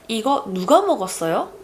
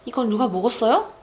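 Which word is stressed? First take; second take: 누가; 먹었어요. First: The emphasis falls on the word 누가. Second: The emphasis falls on the word 먹었어요. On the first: The speaker asks which person ate it. "If I place the emphasis on 누가" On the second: The speaker asks whether anyone ate it. "If I place the emphasis on the 먹었어요"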